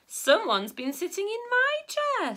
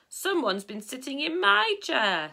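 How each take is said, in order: First: It is said in a medium, middle-pitched voice. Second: It is said in a big, deep, booming voice. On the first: "in a middle-sized voice" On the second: "in a big booming voice"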